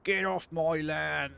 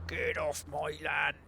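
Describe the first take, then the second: First: Put-on slow, louder, higher old farmer yell; grumpy farmer shout. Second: Slow whispered fist-shaking yell; whispered mock yell. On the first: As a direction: shake your fist and bellow it slowly. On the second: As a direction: hiss the threat slowly. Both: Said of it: "shaking my fist at this car".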